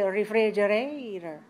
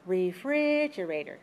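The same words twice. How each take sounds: First: The stress is not on the second syllable. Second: The stress is on the second syllable. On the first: The speaker calls it wrong. "Maybe in your language, but not in English" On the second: The speaker calls it right. "Has five syllables, stress the second"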